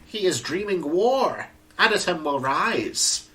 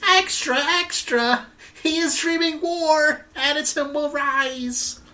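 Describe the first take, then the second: First: It is said in a Skeletor-like voice. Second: It is said in a newspaper boy's voice.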